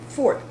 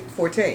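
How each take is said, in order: First: The word is said with one syllable. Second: The word is said with two syllables. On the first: The speaker calls it right. "You're supposed to say fort" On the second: The speaker calls it wrong. "you're not supposed to say forte"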